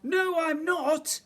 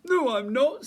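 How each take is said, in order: First: Very high, slow, loud protest; crying out. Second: Loud, high bear denial; indignant bear. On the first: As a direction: cry it out, stretching each word. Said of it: "cried the voice". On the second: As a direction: deny it with big bluster. Bear denies being silly. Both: A narrator's reading.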